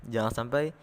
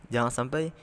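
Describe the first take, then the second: Both takes have the same delivery.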